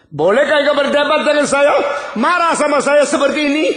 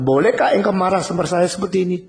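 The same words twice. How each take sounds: First: High, loud outraged voice of God; thundering rebuke. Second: Put-on father scolding child. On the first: Acted. God rebuking Jonah for arguing, in a high thundering voice. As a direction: bellow it down at a defiant prophet. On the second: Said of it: "seorang ayah sudah bicara sama anak".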